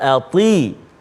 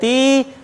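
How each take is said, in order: First: The t is heavy and thickened. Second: The t is light and thin. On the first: It keeps the intended meaning of obeying. The speaker calls it right. "Dekat sini kena tebalkan" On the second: It turns into a different everyday word. The speaker calls it wrong. "Jangan ati. Ati tu anak kita"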